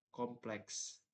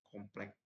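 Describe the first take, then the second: First: The word is said in the standard, educated way. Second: The word is said in a non-standard, uneducated way. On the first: The speaker is educated. The speaker calls it right. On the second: The speaker lacks formal education. The speaker calls it wrong. "tidak terpelajar"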